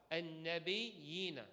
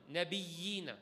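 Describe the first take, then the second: First: An-nabiyina slow and clean, doubled n held, no vibration; correct recitation. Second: Nabiyina with a trembling, vibrated doubled y, the wrong way; wrong vibrating shadda. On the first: Imam showing students the correct reading, slow careful An-nabiyina. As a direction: recite An-nabiyina slowly with a steady shadda. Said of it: "The Shaykh told me it's not nabiyina, it's how?". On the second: Imam showing students his old mistake, vibrated nabiyina. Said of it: "I used to do a lot of vibration, so I'll say the wrong way". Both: Shown as a demonstration.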